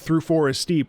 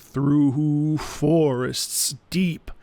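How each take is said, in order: First: The words are said plainly, with normal stress. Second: Each of the three words is strongly stressed. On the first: "instead of just saying" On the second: "We're emphasizing every single word"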